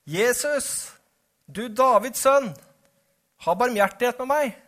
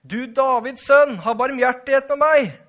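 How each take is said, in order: First: Calling out. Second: Louder shouting. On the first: Blind beggar calls to Jesus for mercy, calling out. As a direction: call out to someone passing, pitched high. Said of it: "satte han i å rope". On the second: Hushed blind beggar cries harder to Jesus, loud shouting. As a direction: shout it at full voice to be heard over the crowd. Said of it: "ropte bare enda høyere". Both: A narrator's reading.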